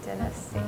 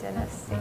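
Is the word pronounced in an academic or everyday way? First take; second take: academic; academic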